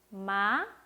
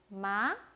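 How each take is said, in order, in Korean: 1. 음이 가볍게 올라갑니다. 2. 음이 가볍게 올라갑니다.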